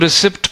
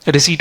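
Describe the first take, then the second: First: A p sound is heard before the t. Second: No p sound is heard before the t. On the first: The speaker calls it wrong. "कुछ लोग इसको रिसिप्ट पढ़ते हैं" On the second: The speaker calls it right. "एक native speaker रिसीट बोलता है"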